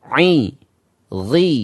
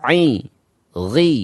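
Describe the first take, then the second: Both takes have the same delivery.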